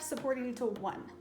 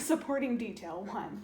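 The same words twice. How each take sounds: First: It is said at normal, quicker speed. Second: It is said more slowly.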